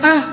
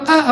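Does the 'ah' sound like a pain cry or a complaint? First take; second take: pain cry; complaint. First: It is a short cry of pain. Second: It is a resentful, complaining sigh.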